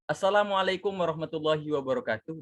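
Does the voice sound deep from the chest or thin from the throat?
throat. The voice is thin and comes from the throat. The speaker calls it wrong. "nggak mungkin pakai suara uh, tenggorokan"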